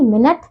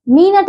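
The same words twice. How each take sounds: First: मिनट with a short "mi"; correct pronunciation. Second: मिनट with a long "mee"; mispronunciation. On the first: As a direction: keep the start of मिनट short. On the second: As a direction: stretch the first vowel of मिनट. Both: Shown as a demonstration. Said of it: "मिनट नहीं".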